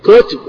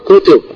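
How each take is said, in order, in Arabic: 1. الكلمة فيها مقطعان، مع حركة بعد التاء. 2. الكلمة فيها مقطعان، مع حركة بعد التاء.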